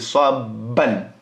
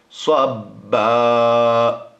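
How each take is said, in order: First: The word ends with a final n sound. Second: The word ends on a vowel, no final n. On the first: The reading continues past this word. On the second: The reader pauses on this word.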